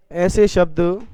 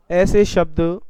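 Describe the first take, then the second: No difference in how they are said.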